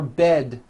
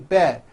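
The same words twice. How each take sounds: First: The final D sound is clearly released. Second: The final D sound is dropped. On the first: The speaker calls it right. "For bed" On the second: The speaker calls it wrong. "you may be saying bed. ... there's no D"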